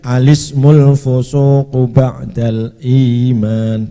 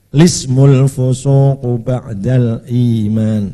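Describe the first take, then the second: First: It starts with a vowel before the L. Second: It starts directly with the L sound.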